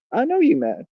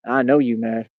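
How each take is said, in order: First: I know you mad jumps high in mock taunt. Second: Said in the usual way. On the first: Shown as a demonstration. Streamer taunting chat, high mocking taunt. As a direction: sing it up high to needle them.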